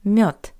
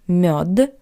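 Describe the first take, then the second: First: The final consonant is a voiceless T. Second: The final consonant is a voiced D. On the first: The speaker calls it right. "but мед" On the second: The speaker calls it wrong. "Not мед"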